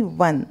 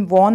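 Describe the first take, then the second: First: वन like the number one; correct pronunciation. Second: वॉन with a rounded "aw" vowel; wrong pronunciation. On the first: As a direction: model वन with a short "uh". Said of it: "एक वन का उच्चारण". (वन का सही उच्चारण, एक जैसा) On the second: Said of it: "वॉन नहीं". (वॉन वाला गलत उच्चारण) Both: Shown as a demonstration.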